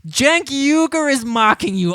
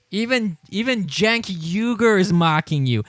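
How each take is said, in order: First: Higher and louder, astonished; excited. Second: Said in the usual way. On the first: Real, not acted. Streamer gleefully telling Fredo he's being mocked, excited. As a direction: shout it in gleeful disbelief. Repeats line with rising excitement.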